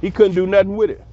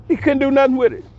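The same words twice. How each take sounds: First: Said in the usual way. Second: Higher, triumphant repeat of the line; pitched-up gloating echo; emphatic repeat. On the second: Real, not acted.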